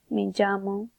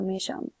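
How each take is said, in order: First: Llamo begins with a j sound. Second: Llamo begins with a sh sound. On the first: "a j" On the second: "or a sh"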